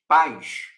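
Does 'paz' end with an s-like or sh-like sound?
sh-like. The word ends with a sh-like sound. This is how it is said in Rio de Janeiro. "Som de X"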